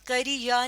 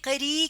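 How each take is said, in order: First: A separate 'ya' syllable follows the word. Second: The final 'i' vowel is simply lengthened. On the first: The speaker calls it wrong. "हम करी या नहीं कह रहे" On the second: The speaker calls it right. "बल्कि करी कह रहे हैं, रे ही की आवाज को लंबा कर रहे हैं"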